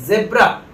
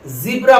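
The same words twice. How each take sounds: First: ज़ेब्रा with 'zeb' at the start; Indian pronunciation. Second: ज़ीब्रा with a long 'zee' at the start; American pronunciation. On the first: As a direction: use an 'e' vowel in ज़ेब्रा. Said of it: "क्योंकि इसका pronunciation". (ज़ेब्रा में 'ज़े') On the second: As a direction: stretch the 'ee' in ज़ीब्रा. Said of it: "लेकिन American इसे". (ज़ीब्रा में लंबी 'ई') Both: Shown as a demonstration.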